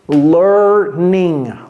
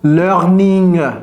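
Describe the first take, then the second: First: The R is a soft English R. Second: The R is a French throaty R. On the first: The speaker calls it right. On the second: The speaker calls it wrong.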